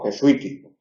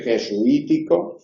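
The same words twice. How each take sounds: First: Jesuítico with sui run together in one syllable; diphthong take. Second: Jesuítico with su and i in separate syllables; hiatus take. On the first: Teacher demonstrating the diphthong reading of jesuítico. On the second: Teacher demonstrating the hiatus reading of jesuítico. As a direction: pull su and i of jesuítico apart. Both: Shown as a demonstration. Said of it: "Podemos decir jesuítico o jesuítico".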